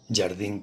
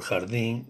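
First: The first consonant is a voiced buzzing sound. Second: The first consonant is a voiceless throaty rasp. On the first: "este caso es claramente un arcaísmo" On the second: This is the modern Spanish pronunciation. "en español moderno sería jeji"

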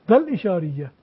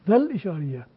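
Both takes have the same delivery.

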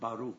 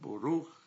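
First: The first vowel is an open 'ah' sound. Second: The first vowel is a rounded 'oh' sound. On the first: "it's not Baruch" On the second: "but Boruch"

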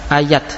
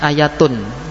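First: The word ends with a plain t sound. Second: The word ends with a full -atun ending. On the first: This is the attested pausal form keeping the t. "dibaca tak terbuka" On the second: This is the original full form. "asalnya ayatun"

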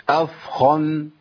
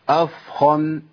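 Both takes have the same delivery.

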